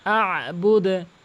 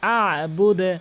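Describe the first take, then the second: The two takes are said the same way.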